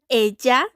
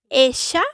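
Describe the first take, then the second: First: The LL sounds like a dj sound. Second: The LL sounds like an sh sound. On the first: "con sonido de una D más J" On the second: "posee un sonido de sh"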